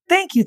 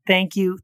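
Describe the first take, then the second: First: High, bright burst of thanks; gushing thank you. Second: Said in the usual way. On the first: Real, not acted. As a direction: squeal the thanks. Repeated thanks, pitched up.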